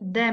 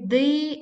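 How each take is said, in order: First: The word is said with a reduced vowel. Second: The word is said with a full vowel. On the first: "That is a weakened form" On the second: "this is a strong form"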